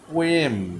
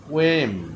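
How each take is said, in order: Both takes have the same delivery.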